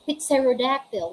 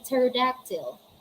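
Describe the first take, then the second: First: The initial P sound is pronounced. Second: The initial P sound is left out. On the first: The speaker calls it wrong. "We don't say" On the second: The speaker calls it right. "We say"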